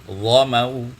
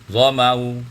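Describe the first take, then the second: The two takes are said the same way.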